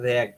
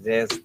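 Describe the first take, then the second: First: The vowel is like 'a' in 'rat'. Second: The vowel is like 'ay' in 'rage'. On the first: The speaker calls it right. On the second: The speaker calls it wrong. "রেজ তো না"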